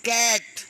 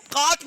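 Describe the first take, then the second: First: कैट with an open AE vowel; correct vowel. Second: काट with a long AA as in father; wrong vowel. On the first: Teacher giving the right reading of cat, AE vowel. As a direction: say कैट with AE, not AA. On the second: Teacher showing how cat is not said, AA vowel. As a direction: say काट with AA in place of AE. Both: Shown as a demonstration. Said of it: "इसको काट नहीं बोलते".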